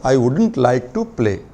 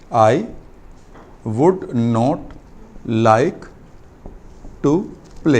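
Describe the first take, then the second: First: Would not is contracted into one word, wouldn't. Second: Would not is said as two full words. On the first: "वुड नॉट की जगह कई बार लोग इसको वुड वुडंट भी बोलेंगे" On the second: "वुड नॉट like आएगा"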